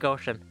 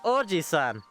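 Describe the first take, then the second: First: The middle i sound is dropped. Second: The middle i sound is pronounced. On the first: The speaker calls it wrong. "So it's not pronounced ocean" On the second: The speaker calls it right. "you pronouncing the I in between the thing"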